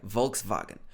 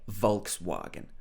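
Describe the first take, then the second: First: The W is pronounced like a V, German style. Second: The W is pronounced as a W, British style. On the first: "this W in German would be more like a V. It would be something like Volkswagen" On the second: "in the U K, we would probably say Volkswagen"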